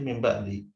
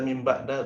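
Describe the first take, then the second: First: The phrase ends in an i vowel. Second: The phrase ends in an a vowel. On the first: The speaker calls it right. "tapi mimba di. Jar karena dia mudhaf" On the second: The speaker calls it wrong. "tidak mimba da"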